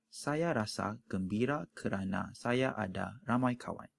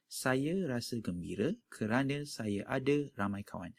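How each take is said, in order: First: "Saya rasa gembira kerana saya ada ramai kawan" with every final a said as a full open a; crisp formal baku reading, each final a open; standard baku Malay. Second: "Saya rasa gembira kerana saya ada ramai kawan" with final a sounds reduced to schwa; relaxed everyday Malay, final a becomes a schwa; common spoken Malay. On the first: Teaching class the formal baku Malay pronunciation. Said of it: "the standard way or the baku way of pronouncing". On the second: Showing learners how Malays commonly say the sentence. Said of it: "commonly you would say".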